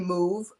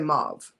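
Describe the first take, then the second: First: The word is said the British and French way. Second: The word is said the speaker's local way. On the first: This is how the French and British say it. "The French and the British say move" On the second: This is how the speaker's own community says it. "the rest of we say mauve"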